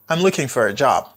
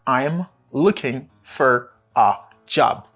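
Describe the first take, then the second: First: The sentence is said quickly and run together. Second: The sentence is said at a normal speed.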